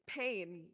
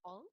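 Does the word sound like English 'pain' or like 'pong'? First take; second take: English pain; pong. First: It is said like the English word pain. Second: It is said with a nasal vowel, like pong. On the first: The speaker calls it wrong. "I don't think you're supposed to say it pain" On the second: The speaker calls it right. "I think it's"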